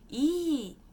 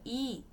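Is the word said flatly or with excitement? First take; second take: with excitement; flatly. First: The word is said with lively, excited energy. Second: The word is said flatly, without much energy. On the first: It means good. "com mais empolgação, é boa" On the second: It means no. "se você fala I, você tá dizendo não"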